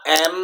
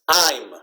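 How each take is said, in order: First: It begins with a short 'a' vowel. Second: It begins with an 'eye' vowel. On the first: The speaker calls it wrong. "It's not am" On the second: The speaker calls it right. "It's I'm"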